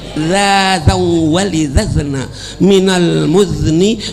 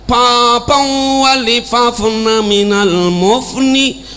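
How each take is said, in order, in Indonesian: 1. Bunyi z diucapkan dengan jelas sebagai z. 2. Bunyi z diganti dengan p dan f. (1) "Sekarang al-fasih" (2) "kalau kami dulu lain"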